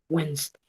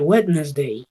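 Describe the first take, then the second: First: The middle d is silent: wens-day. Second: Every letter is sounded, including the d. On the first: The speaker calls it right. "W E N S, solo son las que suenan" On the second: The speaker calls it wrong. "Error común decir Wednesday, ... para tratar de que suenen todas las letras"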